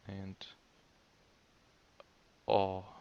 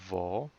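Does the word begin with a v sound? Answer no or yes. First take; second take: no; yes. First: The word begins directly with the vowel. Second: The word begins with a v sound. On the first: This is the standard, correct form. "the right pronunciation" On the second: This is the colloquial, slang form. "Vo is a slang"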